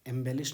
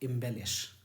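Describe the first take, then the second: First: The first vowel sounds like 'eh'. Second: The first vowel sounds like 'ih'. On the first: The speaker calls it wrong. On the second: The speaker calls it right.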